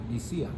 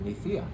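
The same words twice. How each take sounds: First: The middle consonant is a plain s sound. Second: The middle consonant is a lisped th sound.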